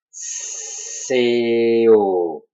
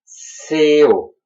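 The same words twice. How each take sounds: First: C O drawn out from a long hissed s; slow syllable demo. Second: Said in the usual way. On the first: Shown as a demonstration. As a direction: stretch each sound of C O slowly. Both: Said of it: "Je le fais lentement".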